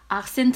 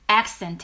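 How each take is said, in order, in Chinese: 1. 这是韩语外来词的说法，aksenteu。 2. 这是按英语发音说的，accent。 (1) "韩语里面的这个语调是外来词，应该是accent" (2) "虽然英文是accent"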